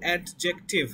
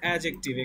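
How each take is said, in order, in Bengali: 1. j-এর আগে একটি আলাদা d ধ্বনি শোনা যায়। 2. j-এর আগে d ধ্বনিটি বাদ পড়ে যায়। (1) "ইটস নট অ্যাডজেক্টিভ" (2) "ডিটা বাদ"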